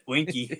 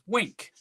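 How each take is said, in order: First: The name is said as two syllables. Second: The name is said as one syllable. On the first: The speaker calls it wrong. "pronounced it Winky" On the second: The speaker calls it right. "This guy's name is Wink"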